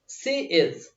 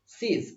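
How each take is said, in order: First: It is said as two separate full words. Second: It is said as one short contracted word. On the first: "सी इज सीज हो जाता है" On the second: "सी इज सीज हो जाता है"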